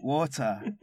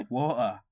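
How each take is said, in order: First: Water said "WAW-tuh" with a clear T; British Water, crisp T in the middle; T pronounced. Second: Water said "WAW-uh", no T; British Water with a glottal stop for the T; T dropped. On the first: Briton trying to be understood, T pronounced. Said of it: "remember to pronounce your T's". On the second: Briton not understood by Americans, T dropped. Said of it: "don't pronounce your T's". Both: Shown as a demonstration.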